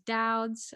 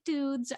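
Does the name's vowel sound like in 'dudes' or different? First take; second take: different; dudes. First: The vowel differs from the one in 'dudes'. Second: The vowel sounds like the one in 'dudes'. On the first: The speaker calls it right. "I am here to correct you. It is Dowd's" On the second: The speaker calls it wrong. "A lot of people like to pronounce it Dudes"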